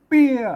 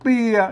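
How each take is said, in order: First: The syllable is said with the northern tho tone. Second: The syllable is said with a low tone. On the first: "เสียงโทเมือง" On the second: "เอก"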